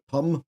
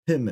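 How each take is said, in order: First: The vowel has a New Zealand quality. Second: The vowel has a standard quality. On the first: "in New Zealand we'd pronounce it Pum" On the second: "but it's P I M"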